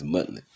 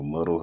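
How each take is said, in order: First: "muddled" said as "mut-lit"; alternative pronunciation. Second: "muddled" said as "muttle"; alternative pronunciation. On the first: Reader trying out a word from the article, alternative pronunciation. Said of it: "Or muddled, however you wanna say it". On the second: Reader offering another way to say the word, alternative pronunciation. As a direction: say "muddled" ending in a syllabic l, "MUT-ul". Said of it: "however you wanna say it". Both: Shown as a demonstration.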